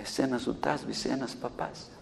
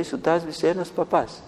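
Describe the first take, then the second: First: Much softer, low hollow demon voice; the devil admits defeat, almost under the breath. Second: Said in the usual way. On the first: Retold or imitated. Devil conceding to the minister, soft and low. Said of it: "ο διάβολος τώρα από μέσα της". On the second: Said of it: "Τι είχε γίνει".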